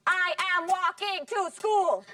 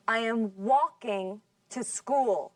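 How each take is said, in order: First: Every word from "I" to "school" hit equally hard, higher and slow; robotic, flat-stressed mock of a learner saying "I am walking to school"; wrong even stress. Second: Slow and careful, with the stress on "walking" and "school"; "walking" strong, "I am" and "to" small and light; correct sentence stress. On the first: Teacher mocks the wrong way, every word stressed, higher and slow. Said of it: "No decimos". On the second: Teacher repeats the correct model for the class, slowly and with stress on "walking". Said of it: "Listen again". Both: Shown as a demonstration.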